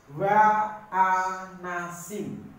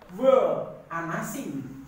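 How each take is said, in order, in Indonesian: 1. Suku kata pertama memiliki vokal 'a'. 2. Suku kata pertama memiliki vokal 'e'. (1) "tetapi dia menjadi" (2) "dia tidak menjadi"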